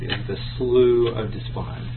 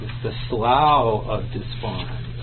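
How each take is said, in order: First: Slough is said with an oo vowel. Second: Slough is said with an ow vowel. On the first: This is the American way to say it. "that's the standard American way to say this word" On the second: This is the British way to say it. "that's the British way to say it"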